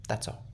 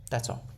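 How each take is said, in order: Both takes have the same delivery.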